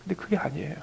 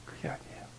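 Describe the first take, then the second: First: Said in the usual way. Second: 그게 아니에요 repeated as a much softer whisper; whispered echo. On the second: Real, not acted. Preacher echoes his point to the congregation, whispering. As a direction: breathe the words 그게 아니에요 again, nearly silent.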